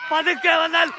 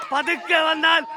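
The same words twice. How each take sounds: The two takes are said the same way.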